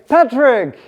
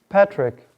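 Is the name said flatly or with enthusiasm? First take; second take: with enthusiasm; flatly. First: The name is said warmly, with enthusiasm. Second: The name is said flatly, without feeling.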